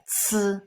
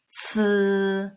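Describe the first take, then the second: First: The sound is cut short. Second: The sound is held longer.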